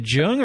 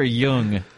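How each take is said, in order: First: Jung with a hard English J sound; hard J pronunciation. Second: Jung said as Yung; Y pronunciation. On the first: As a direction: start Jung with a J as in jump. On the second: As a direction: start Jung with a Y sound as in young. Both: Shown as a demonstration. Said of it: "Is it Jung or Jung".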